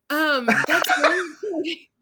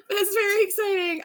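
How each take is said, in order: First: Laughing. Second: Near tears. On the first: Co-host laughing, near tears. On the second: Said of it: "now I'm gonna cry". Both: Real, not acted.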